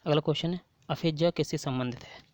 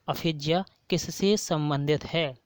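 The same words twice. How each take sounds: First: Said in the usual way. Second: Slow, deliberate, stress on किससे; slow repeat. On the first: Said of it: "teacher reads quiz question". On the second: Shown as a demonstration. Teacher repeating the question for students, slow and deliberate. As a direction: repeat it slowly, leaning on किससे. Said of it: "teacher repeats question slowly".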